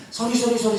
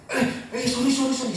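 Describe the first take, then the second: First: Put-on higher, coaxing repeated sorry to a crying kid; calm the little one down; soothing sorry. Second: Higher, with a little laugh; light laughing apology. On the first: Father soothing his crying child, higher and gentle. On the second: Retold or imitated. Father to his fallen child, light and laughing. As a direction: brush off a small accident kindly.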